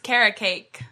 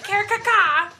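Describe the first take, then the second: First: The name sounds like 'carrot cake'. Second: The name sounds like 'kerkaka'. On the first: This is the reading the creator intended. "in my head, at the time when I made it, it was carrot cake" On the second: This is how another person reads the name. "He'll be like, Kerkaka. That's what he calls it"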